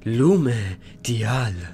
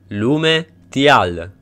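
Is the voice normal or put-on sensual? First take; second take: sensual; normal. First: It is said in a put-on sensual voice. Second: It is said in his normal voice.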